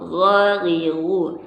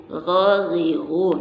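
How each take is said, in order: No difference in how they are said.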